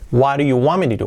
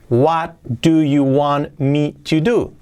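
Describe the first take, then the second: First: It is said fast, with reduced words. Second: It is said at a normal, careful speed.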